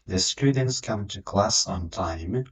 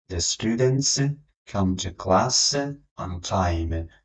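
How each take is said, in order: First: The students come to class on time, whole and very slow; slow model sentence. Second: The students, come to class, on time, split with pauses; chunked phrasing. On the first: Teacher to students, whole sentence slow. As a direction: read the whole sentence slowly. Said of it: "teacher models the whole sentence". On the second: Teacher to students, sentence in paused chunks. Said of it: "teacher repeats it in chunks". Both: Shown as a demonstration.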